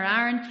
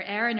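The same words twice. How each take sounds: First: "Aaron" said with an open AR first vowel; name pronunciation variant. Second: "Aaron" said with an AIR first vowel; name pronunciation variant. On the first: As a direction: say "Aaron" as ARR-un. Offers the alternative pronunciation. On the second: Offers two pronunciations of the name. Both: Shown as a demonstration.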